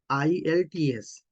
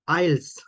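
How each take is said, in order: First: The letters are spelled with the E left out. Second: It is pronounced as one single word. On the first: "They don't uh, use E" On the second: "they use this as a word like this"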